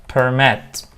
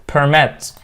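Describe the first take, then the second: Both takes have the same delivery.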